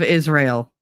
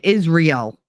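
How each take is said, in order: First: It sounds like the usual single word 'Israel'. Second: It sounds like the two words 'is real'. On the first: This is the proper way to say it. The speaker calls it right. "instead of Israel. It's Israel" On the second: This is how people who misspell it say it. The speaker calls it wrong. "That's because they pronounce it Israel"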